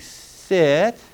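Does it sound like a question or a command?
question. It sounds like an uncertain request.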